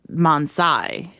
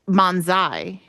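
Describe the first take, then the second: First: The second syllable starts with an s sound. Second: The second syllable starts with a z sound. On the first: This is how the video says it. "the miscellany video says Mansai ... or Sai" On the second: This is how the character in the show says it. "he says Manzai ... if it's Zai"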